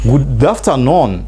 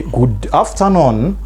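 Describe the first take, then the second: First: Slow model. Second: Slow rising model. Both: Shown as a demonstration. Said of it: "Or you say".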